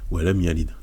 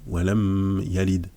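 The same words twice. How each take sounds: First: The m is nasalized only lightly and briefly. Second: The m is nasalized strongly and held long. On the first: The speaker calls it right. "Donc c'est vraiment diminué" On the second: The speaker calls it wrong. "On va pas dire"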